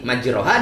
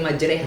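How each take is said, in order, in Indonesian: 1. Vokal setelah r terdengar seperti 'o'. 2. Vokal setelah r terdengar seperti 'e'. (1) "majroha tulisannya" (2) "dibaca Bismillahi majreha"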